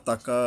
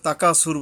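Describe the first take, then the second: First: তাকা with the final "aa" held one beat; one-alif stretch. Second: তাকাসুর with the "kaa" cut short; short vowel mistake. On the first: Teacher corrects learners, তাকা with a drawn-out ending. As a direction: lengthen the last vowel of তাকা slightly. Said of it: "একটু এক আলিফ টান আছে". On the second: Teacher warns learners of a mistake, তাকাসুর said unstretched. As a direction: rush through তাকাসুর without stretching its middle vowel. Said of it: "তাকাসুর বললে গেলে হবে না". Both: Shown as a demonstration.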